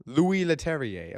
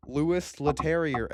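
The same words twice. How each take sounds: First: "Louis Leterrier" as LOO-ee le-TERRY-ay; French-style pronunciation. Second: "Louis Leterrier" as LOO-iss le-TERRY-er; anglicized pronunciation. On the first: Host correcting "Louis Leterrier" to LOO-ee le-TERRY-ay, French-style. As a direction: say "Louis Leterrier" with silent s and an -ay ending. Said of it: "Oh, you say Louis". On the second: Host guessing at "Louis Leterrier", anglicized with s and r sounded. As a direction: say "Louis Leterrier" English-style, sounding the s and final r. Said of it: "Is that how you say his name?". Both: Real, not acted.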